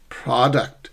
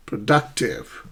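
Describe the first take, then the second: First: "Product" weighted on PROD; first-syllable stress. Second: "Productive" slow, DUC stretched and strong; middle-stressed "Productive"; shifted stress. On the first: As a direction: lean on the front of "Product". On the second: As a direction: slowly land on DUC in "Productive". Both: Shown as a demonstration. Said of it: "How do we sh-, shift stress?".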